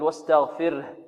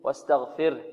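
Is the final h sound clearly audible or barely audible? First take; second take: barely audible; barely audible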